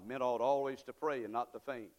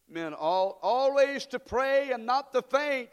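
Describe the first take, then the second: First: Said in the usual way. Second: Loud, slow congregation recitation; recited together. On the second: Shown as a demonstration. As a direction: lead the crowd through it slowly. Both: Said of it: "Say it with me".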